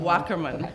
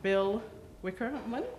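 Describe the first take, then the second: First: The first vowel sounds like 'whack'. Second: The first vowel sounds like 'wick'. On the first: The speaker calls it right. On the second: The speaker calls it wrong.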